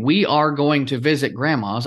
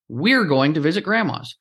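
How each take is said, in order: First: The words "we are" are said in full. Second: The words "we are" are contracted to "we're". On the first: "Instead of saying" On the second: "it's more natural for me to put the contraction in"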